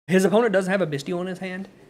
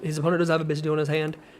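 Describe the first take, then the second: First: It is said at a louder, normal volume. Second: It is said at a softer, quieter volume.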